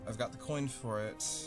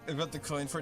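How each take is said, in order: First: It is said in his normal voice. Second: It is said in a put-on character voice.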